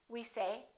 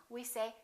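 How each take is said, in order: Both takes have the same delivery.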